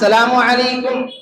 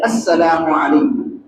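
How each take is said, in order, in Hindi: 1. यह अभिवादन सीधे 'salam' से शुरू होता है। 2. यह अभिवादन 'as' अक्षर से शुरू होता है। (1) "सलाम के अल्फाज को सही से अदा नहीं करते" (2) "सही लफ्ज है"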